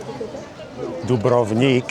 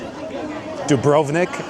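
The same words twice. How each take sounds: First: The name is said with its native pronunciation. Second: The name is said with an American pronunciation. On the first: The speaker calls it right. "if we're going to pronounce it correctly" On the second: The speaker calls it wrong. "as Americans would say it"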